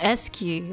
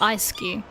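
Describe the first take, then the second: First: The name begins with a short 'ess' sound. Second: The name begins with a long 'ice' sound. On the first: The speaker calls it wrong. "I remember it's S-Q, like E. Like the S sound" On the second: The speaker calls it right. "but it's Ice-Q"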